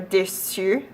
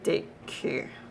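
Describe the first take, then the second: First: The c is pronounced as an s sound. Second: The c is pronounced as a k sound. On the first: The speaker calls it right. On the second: The speaker calls it wrong.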